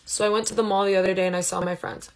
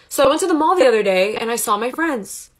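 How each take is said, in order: First: The voice is flat with little expression. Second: The voice is lively with lots of expression. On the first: The speaker sounds insecure. The speaker calls it wrong. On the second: The speaker sounds confident. The speaker calls it right.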